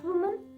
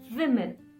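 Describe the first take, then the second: First: It is said like the singular 'woman'. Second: It is said like the plural 'women'. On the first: It refers to one woman. The speaker calls it wrong. "Not woman" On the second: It refers to more than one woman. The speaker calls it right.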